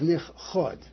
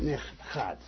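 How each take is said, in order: First: The final vowel sounds like 'oh'. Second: The final vowel sounds like 'ah'. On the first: It is hidden now. The speaker calls it right. "The right way to pronounce that" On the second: It was hidden in the past. The speaker calls it wrong. "not nich chad. Because nich chad means in the past"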